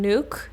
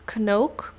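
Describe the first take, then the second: First: The name starts with no K sound. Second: The name starts with a sounded K. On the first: This is a simpler form for foreigners. "when I like introduce myself to someone in the U S" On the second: This is how the name is said at home. "the K the way that we do it in the Netherlands"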